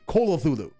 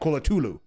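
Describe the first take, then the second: First: The name is said with fewer, tighter syllables. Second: The name is said with more, looser syllables. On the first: The speaker calls it right. "So it should be Cthulhu" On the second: The speaker calls it wrong. "not Colatulu. You twit"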